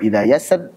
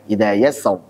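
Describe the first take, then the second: First: The final r sound is light and thin. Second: The final r sound is heavy and full-mouthed.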